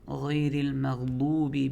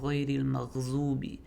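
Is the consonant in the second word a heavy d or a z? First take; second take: heavy d; z. First: The consonant is a heavy d sound. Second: The consonant is a z sound. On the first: The speaker calls it right. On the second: The speaker calls it wrong.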